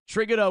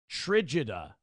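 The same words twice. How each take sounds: First: The G is pronounced as a hard sound. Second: The G is pronounced as a soft sound. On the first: The speaker calls it wrong. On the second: The speaker calls it right.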